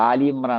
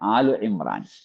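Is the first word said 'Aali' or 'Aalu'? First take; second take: Aali; Aalu. First: The first word ends in an 'ee' vowel. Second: The first word ends in an 'oo' vowel. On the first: The speaker calls it wrong. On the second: The speaker calls it right.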